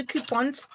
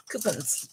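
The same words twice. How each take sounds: First: Said in the usual way. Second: "coupons" said as KOO-puns, lower and softer; sister-in-law's pronunciation. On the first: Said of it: "if you wanna know why I say coupons". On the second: Retold or imitated. Host playfully borrowing her sister-in-law's word, "coupons" as KOO-puns. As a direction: say "coupons" with a reduced second syllable, KOO-puns. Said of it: "my sister-in-law always called them coupons".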